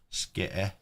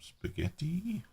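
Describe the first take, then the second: First: It is said in a clipped local pronunciation. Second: It is said in a standard pronunciation.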